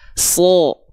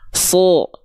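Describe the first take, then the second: First: The vowel sounds darker, leaning toward O. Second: The same.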